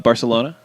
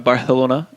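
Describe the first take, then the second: First: The c is said with a plain s sound. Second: The c is said with a lisped th sound.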